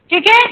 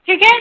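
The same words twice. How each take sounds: The two takes are said the same way.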